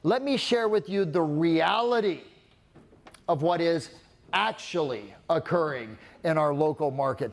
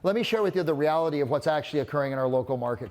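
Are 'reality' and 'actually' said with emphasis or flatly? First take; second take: emphasis; flatly. First: Strong falling emphasis lands on 'reality' and 'actually'. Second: The whole sentence is said flatly without emphasis. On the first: The speaker calls it right. "I did a really hardcore downswing on reality and actually" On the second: The speaker calls it wrong. "Just sounds like blah"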